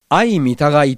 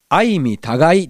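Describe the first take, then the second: First: It is said with one accent, as one word. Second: It is said with two accents, as two parts. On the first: The speaker calls it wrong. "続けて読むんではなくて" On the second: The speaker calls it right. "というアクセントで読むのが正しいんじゃないかと思う"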